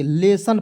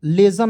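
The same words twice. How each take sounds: First: लेसन with a hissed s, "le-san"; correct pronunciation. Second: लेसन with a buzzed z, "le-zan"; wrong pronunciation. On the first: Teacher giving the right reading, demonstrating correct pronunciation. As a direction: say लेसन with s, never z. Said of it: "लेसन पढ़ेंगे". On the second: Teacher warning against a misreading, demonstrating wrong pronunciation. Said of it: "लेसन नहीं पढ़ेंगे". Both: Shown as a demonstration.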